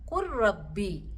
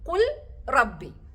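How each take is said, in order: First: The L merges fully into a doubled R. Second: The L is pronounced separately before the R. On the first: The speaker calls it right. "ലാമിനെ നമ്മൾ ഉച്ചരിക്കാതെ ലാമിനെ റാലോട്ട് പൂർണ്ണമായി ലയിപ്പിച്ച്" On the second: The speaker calls it wrong. "ഇവിടെ നോക്കിയാൽ എന്താണ് വായിക്കുന്നത്?"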